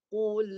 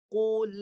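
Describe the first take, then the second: Both takes have the same delivery.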